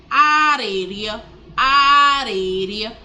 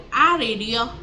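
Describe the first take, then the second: First: "areria" slow and loud, sounds held long; drawn-out R demonstration. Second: Said in the usual way. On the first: Shown as a demonstration. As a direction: stretch "areria" out so each R is heard. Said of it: "There's a lot of R going on in that word". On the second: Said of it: "a lot of R going on in that word".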